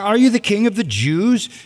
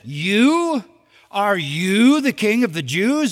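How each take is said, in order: First: It is asked as a plain question. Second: It is asked in a mocking, incredulous tone.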